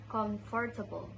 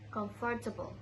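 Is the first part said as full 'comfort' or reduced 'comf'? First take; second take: full; full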